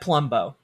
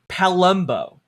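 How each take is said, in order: First: The vowel after the first consonant is dropped. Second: The vowel after the first consonant is fully pronounced. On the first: "it sounds like" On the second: "if I were to overpronounce it"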